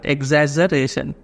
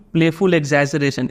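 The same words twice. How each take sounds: First: "एग्जैजरेशन" sounded out in separate syllables; pronunciation demo. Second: Said in the usual way. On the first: Shown as a demonstration. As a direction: teach "एग्जैजरेशन" part by part, each syllable distinct. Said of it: "ऐसे pronounce करते हैं हम लोग इसको". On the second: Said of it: "इसको pronounce कैसे करेंगे".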